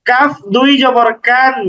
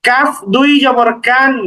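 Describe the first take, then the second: No difference in how they are said.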